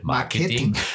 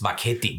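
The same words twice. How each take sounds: First: The word is pronounced in the standard way. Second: The word is pronounced in a distorted way. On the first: This is how the word should be pronounced. The speaker calls it right. "also nicht Marketing" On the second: This is how others mispronounced the word. The speaker calls it wrong. "Sie konnten es nicht einmal richtig aussprechen"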